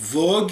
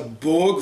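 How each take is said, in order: First: The word begins with a V sound. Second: The word begins with a B sound. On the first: "voire VOG, l'écriture japonaise distinguant rarement le B du V" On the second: "les personnages du film prononcent plutôt ça BOG"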